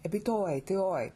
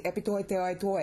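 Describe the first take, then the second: First: "Epi toi teoi" closed with a fall before a break; pause after phrase. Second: "epi toi teoi toi" with no break after "teoi"; string "epi toi teoi toi" into one phrase; run together, no pause. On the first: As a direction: stop cleanly after "teoi". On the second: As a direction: rush straight from "teoi" into "toi". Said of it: "you're gonna lose your". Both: Shown as a demonstration.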